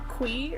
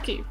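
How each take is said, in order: First: The name does not sound like 'key'. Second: The name sounds like the word 'key'. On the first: This is the supposedly official way. The speaker calls it wrong. "supposedly the way to say his name is supposed to be" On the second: This is the preferred way. The speaker calls it right. "We're saying Key. That's how it's pronounced"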